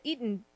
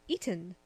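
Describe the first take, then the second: First: The T in the middle is weak or dropped. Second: The T in the middle is sharply pronounced. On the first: The speaker calls it wrong. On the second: The speaker calls it right. "Gotta really enunciate that T"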